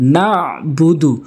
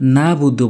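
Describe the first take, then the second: First: A throat consonant is pronounced in the middle. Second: The middle throat consonant is left out. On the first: The speaker calls it right. "আইন হলকের মাঝখান থেকে উচ্চারণ করতে হবে" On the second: The speaker calls it wrong. "ভুল করে নাবুদু বলে, নাবুদু আইনের উচ্চারণটি বাদ দিয়ে ফেলে"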